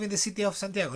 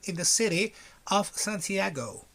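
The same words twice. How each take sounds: First: It is said with a Spanish accent. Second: It is said with an English accent. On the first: The speaker calls it wrong. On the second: The speaker calls it right.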